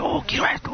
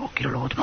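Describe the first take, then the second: First: Unvoiced whisper of craving; whispered longing for things; greedy whisper. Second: Very soft, lower murmur of wanting; barely voiced, trailing craving; a soft, low murmur of greed; hushed greedy murmur. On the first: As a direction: breathe it like a secret greed.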